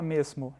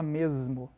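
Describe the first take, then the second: First: The middle consonant is a hissing S sound. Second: The middle consonant is a buzzing Z sound. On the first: This is not how people actually say it. The speaker calls it wrong. "A gente não fala mesmo" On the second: This is how people actually say it. The speaker calls it right. "a gente fala mesmo. Então tem um som de Z"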